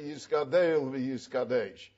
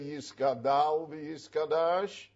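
First: Each word ends with an 'eh' vowel sound. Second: Each word ends with an 'ah' vowel sound. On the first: The speaker calls it right. "you say Yisgadel v'Yisgadesh" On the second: The speaker calls it wrong. "you don't say Yisgadal v'Yisgadash"

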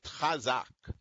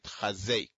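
First: The final syllable is pronounced with an 'a' vowel. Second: The final syllable is pronounced with an 'e' vowel. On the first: The speaker calls it right. "The way we should say it" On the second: The speaker calls it wrong. "it got sort of corrupted into"

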